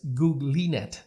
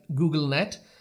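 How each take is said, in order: First: The name is said like Googly plus net. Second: The name is said like Google plus net. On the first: The speaker calls it right. "the right way to pronounce this network is GooglyNet" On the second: The speaker calls it wrong. "it looks like GoogleNet"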